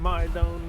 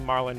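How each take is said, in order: First: The last syllable has a long 'oh' vowel. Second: The last syllable has a short, weak vowel. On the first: The speaker calls it wrong. "not Marlone" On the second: The speaker calls it right. "I guess it'd be Marlon"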